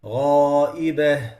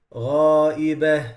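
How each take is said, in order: First: Slow Ghaibah with the heaviest alif; correct heavy Ghaibah. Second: Slow Ghaibah with a thin alif; wrong light Ghaibah. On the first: Teacher showing students the right Ghaibah. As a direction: fill Ghaibah with full heaviness. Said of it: "it has to be". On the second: Teacher showing students a wrong Ghaibah. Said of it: "Same thing with". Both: Shown as a demonstration.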